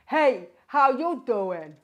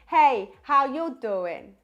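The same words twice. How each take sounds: First: The voice sounds dark, deep and rich. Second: The voice sounds warm, round and balanced. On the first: "We're going to start out with a lower larynx" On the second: "And then for a more neutral larynx positioning"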